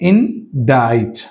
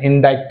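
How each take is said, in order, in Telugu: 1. "t" ముందు ఏ "k" ధ్వనీ ఉచ్చరించబడదు. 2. "t" ముందు ఒక "k" ధ్వని ఉచ్చరించబడుతుంది. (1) "సి సైలెంట్" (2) "అనకూడదు"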